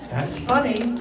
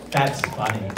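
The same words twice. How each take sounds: First: Mock delight. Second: Deadpan. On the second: Acted. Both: Repeating own joke two ways.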